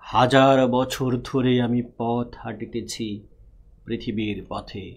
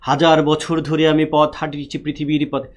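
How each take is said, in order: First: The line is recited slowly and evenly. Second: The line is recited quickly and rushed. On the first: The speaker calls it right. "এটা খুব slowly পড়তে হয়" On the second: The speaker calls it wrong. "মিলে না"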